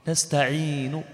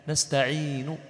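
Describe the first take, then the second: No difference in how they are said.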